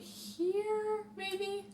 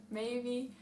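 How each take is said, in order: First: High lilting "maybe?"; high questioning. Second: Said in the usual way. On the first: Real, not acted. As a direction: toss it up high, unsure. Repeated maybe.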